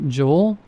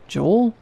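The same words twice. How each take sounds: First: JOEL as a mild question, rising at the end; tentative name-check on JOEL, gently rising; questioning call. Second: JOEL much higher, sharply rising question; insistent questioning call. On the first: New cashier calls to the silent guard, tentatively questioning JOEL. Calling the guard who ignores them. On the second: Ignored cashier calls the guard as he opens salt, high questioning JOEL. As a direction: lift JOEL high, seeking an answer. Calling again as salt is opened. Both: A narrator's reading.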